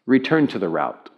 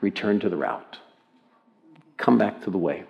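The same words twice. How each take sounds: First: Understated navigation prompt; lightly voiced, even-toned satnav; Siri GPS voice. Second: Soft, low murmur; quiet, lowered prompting; hushed near-whisper. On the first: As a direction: give it as a calm automated instruction. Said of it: "started to say it like this to me". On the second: Acted. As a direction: say it gently, barely raised. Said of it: "in a whisper".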